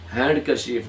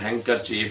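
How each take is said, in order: First: The d sound is clearly pronounced. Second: The d sound is silent. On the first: The speaker calls it wrong. "जिसको अक्सर लोग हैंड करचीफ कहते हैं, हैंड करचीफ नहीं है" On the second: The speaker calls it right. "हैंग करचीफ है। डी यहाँ पे क्या है, साइलेंट है।"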